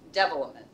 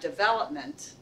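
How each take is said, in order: First: The stress is on the first syllable. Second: The stress is on the second syllable. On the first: "It was like the accent's on the first syllable" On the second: "so the accent's on the second syllable"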